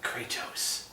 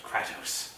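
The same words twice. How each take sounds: First: Kratos whispered as KREE-tos with a long i; Kratos, proper Greek way. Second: Kratos whispered as KRAY-tos with a flat a; Kratos, common way. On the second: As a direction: say Kratos as KRAT-os, American style. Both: Shown as a demonstration. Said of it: "Not Kratos".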